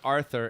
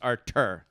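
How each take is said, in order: First: The middle consonant is a th sound. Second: The middle consonant is a plain t. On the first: The speaker calls it wrong. "It's not Arthur" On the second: The speaker calls it right. "It's Artur"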